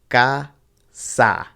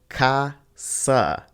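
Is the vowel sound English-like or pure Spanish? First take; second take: pure Spanish; English-like. First: Both vowels are a pure open ah. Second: The vowels sound like English vowels. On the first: The speaker calls it right. "in Spanish it's only ever a" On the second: The speaker calls it wrong. "a lot of times we try to pronounce this word casa"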